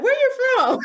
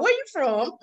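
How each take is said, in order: First: High, loud laughing Southern "Where you from?"; mock a Southern local asking "Where you from?" with a laugh; Southern drawl question. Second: A second laughing Southern take of "Where you from?", rising at the end; Southern drawl question. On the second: Retold or imitated. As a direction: tease in a Southern accent, laughing. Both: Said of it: "my country accent is thicker here".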